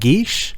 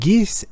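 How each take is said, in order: First: The word ends with an sh sound. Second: The word ends with an s sound. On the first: The speaker calls it right. "geese is an Irish word pronounced geesh" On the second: The speaker calls it wrong. "in the both geese is pronounced as such"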